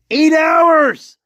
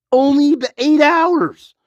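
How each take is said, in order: First: Exasperated cry; angry shout. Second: Said in the usual way. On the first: Real, not acted. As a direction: bark the number out in disbelief. Repeating the point, now shouting.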